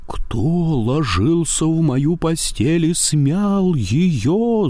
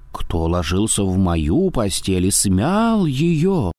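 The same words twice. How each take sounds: First: Slow, high roar; growling bear. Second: Softer growl. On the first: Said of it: "заревел Михаил Иванович страшным голосом". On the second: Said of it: "зарычала Настасья Петровна, не так громко". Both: A narrator's reading.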